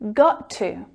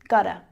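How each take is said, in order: First: Each word is pronounced fully and separately. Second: The words blend into one reduced form.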